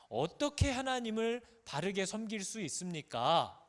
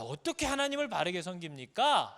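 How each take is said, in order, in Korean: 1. 이 질문은 진지하고 간절하게 들려요. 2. 이 질문은 짜증 나고 불평하는 것처럼 들려요. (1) "섬기고 싶다는 뜻이고요" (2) "못하겠다는 뜻인 거죠"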